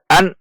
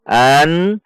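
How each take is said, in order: First: The n sound is cut off abruptly. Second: The n sound is held out clearly. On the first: The speaker calls it wrong. "tidak boleh dibaca an atau dihentak an" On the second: The speaker calls it right. "dibaca izhar atau jelas"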